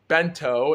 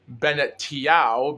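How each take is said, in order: First: The name is said in two short syllables. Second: The name is said in four syllables. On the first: This is how the broadcast says the name. "if that's how they pronounce his name" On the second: This is how the speaker says the name. "I actually pronounced his name as Bennett Tiao"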